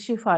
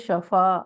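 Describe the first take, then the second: First: The first vowel is an 'i' sound. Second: The first vowel is an 'a' sound. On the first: The speaker calls it wrong. "ये शिफा नहीं है" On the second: The speaker calls it right. "ये है शफा"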